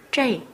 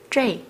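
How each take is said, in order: First: The vowel ends with an 'ee' glide. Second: The vowel ends with an 'ee' glide.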